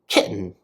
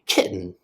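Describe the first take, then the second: First: The middle T is cut off. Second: The same.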